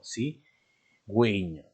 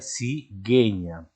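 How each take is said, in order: First: The u after the g is pronounced. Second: The u after the g is silent. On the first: The speaker calls it right. "sino cigüeña" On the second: The speaker calls it wrong. "Si no llevara esos dos puntos, ¿cómo se leería? Se leería cigueña"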